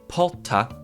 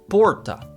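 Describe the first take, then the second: First: The R is an H sound. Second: The R is an American R. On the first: "like with the H" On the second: "like an American R"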